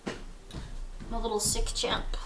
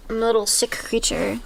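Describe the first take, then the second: First: Slow, soft whisper. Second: Said in the usual way. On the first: Real, not acted. Sick streamer whispering to chat, slow and soft. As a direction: breathe it out slowly to chat.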